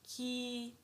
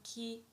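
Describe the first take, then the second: First: The vowel is held long. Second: The vowel is short. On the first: "it will sound ki, ki, like this, prolonged" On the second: "if we have sound ki"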